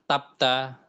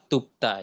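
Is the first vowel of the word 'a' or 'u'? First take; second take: a; u. First: The first vowel is an 'a' sound. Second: The first vowel is an 'u' sound. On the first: The speaker calls it wrong. "bukan nggak dibaca tapta" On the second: The speaker calls it right. "Kenapa menjadi u"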